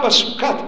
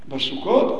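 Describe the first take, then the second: First: The final syllable has an 'a' vowel. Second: The final syllable has an 'o' vowel. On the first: The speaker calls it wrong. "אל תקראו בגמרא" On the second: The speaker calls it right. "אלא איך תקראו?"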